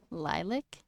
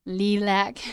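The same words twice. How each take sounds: First: Lilac as a soft, questioning "lie-lick?"; own pronunciation. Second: Lilac louder, with a clear "lack"; most people's pronunciation. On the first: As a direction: try Lilac with a "lik" ending, rising. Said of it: "What do I say?". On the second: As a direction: say Lilac ending in a full "lack". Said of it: "The way most people say it". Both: Shown as a demonstration.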